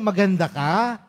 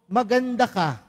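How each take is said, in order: First: It is said as a question, rising at the end. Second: It is said as a statement, falling at the end. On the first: It asks whether someone is beautiful. The speaker calls it wrong. "iba yung patanong" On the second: It tells someone they are beautiful. The speaker calls it right. "Hindi patanong ha"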